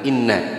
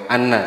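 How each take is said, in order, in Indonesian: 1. Kata ini diawali dengan vokal 'i'. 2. Kata ini diawali dengan vokal 'a'.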